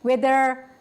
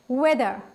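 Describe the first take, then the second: First: The word ends with a clearly sounded R. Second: The word ends in a vowel, no R. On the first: The speaker calls it wrong. "We are not saying weather, right? ... We are not pronouncing like that" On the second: The speaker calls it right. "We are saying weather"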